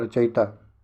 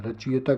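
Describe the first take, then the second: First: रचयिता as "racha-yita"; i after य. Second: रचयिता as "rachi-yeta"; misplaced i. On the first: Teacher answers with the right form, "racha-yita". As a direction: move the i onto य in रचयिता. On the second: Teacher asks about the misspelling, "rachi-yeta". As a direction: put the i after च in रचयिता. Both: Shown as a demonstration. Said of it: "रचयिता क्या होता है".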